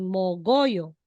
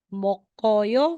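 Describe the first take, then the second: First: The middle consonant sounds like a voiced g. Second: The middle consonant sounds like a voiceless k.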